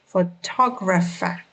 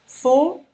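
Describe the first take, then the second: First: "Photographer" with the stress on "tog"; second-syllable stress. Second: "Photographer" broken into four separate syllables with pauses. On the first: Teacher shows learners word stress, second syllable emphasized. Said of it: "the stress falls on the second syllable". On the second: Teacher counts four syllables for learners, word said syllable by syllable. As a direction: split "Photographer" into pho, to, gra, pher. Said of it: "has four syllables". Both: Shown as a demonstration.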